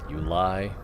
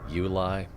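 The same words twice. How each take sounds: The two takes are said the same way.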